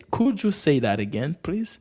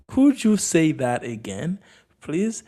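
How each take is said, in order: First: Said in the usual way. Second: Slow, spaced-out model question; slow repeat. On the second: Shown as a demonstration. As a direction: repeat it slowly for learners, rising on please. Slower repeat for learners.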